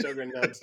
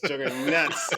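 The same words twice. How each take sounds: First: Said in the usual way. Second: "Juggernauts" in a Boston accent, r dropped as Juggahnauts; Boston accent on "Juggernauts", no r sound. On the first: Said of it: "You have to say it right". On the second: Shown as a demonstration. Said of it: "With a Boston accent".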